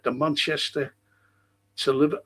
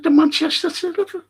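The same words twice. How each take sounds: First: Said in the usual way. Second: Much higher, louder, fast mocking echo; furious retort. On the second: Mocking the fella's railway claim, furious shout. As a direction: throw his words back at him in a rage. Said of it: "I just went berserk".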